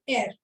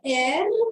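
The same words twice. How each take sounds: First: The R sound at the end is only half pronounced. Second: The R sound at the end is fully pronounced. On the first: The speaker calls it right. "You don't complete it. You just say half of it" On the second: The speaker calls it wrong. "So you don't say Air"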